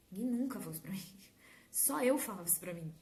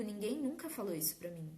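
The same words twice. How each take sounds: First: Whispered aside. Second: Said in the usual way. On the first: Shown as a demonstration. Repeats line, then whispers it.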